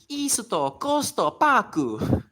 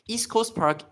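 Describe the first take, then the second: First: It is said with extra vowels after consonants. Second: It is said with plain English sounds.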